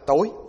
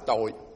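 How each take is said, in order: First: The word has a high rising tone. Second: The word has a low glottalized tone. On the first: "Rồi để dấu sắc thì nó là tối" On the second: "mà để dấu nặng nó là tôi"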